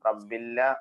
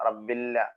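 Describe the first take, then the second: No difference in how they are said.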